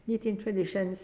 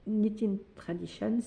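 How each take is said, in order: First: Said in the usual way. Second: "Knitting Traditions" said the English way, with "Knitting" rising; a mock-proud attempt at an English accent on "Knitting Traditions"; self-mocking English accent. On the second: Shown as a demonstration. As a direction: try out your best English pronunciation of "Knitting Traditions", half joking. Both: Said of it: "avec mon super accent".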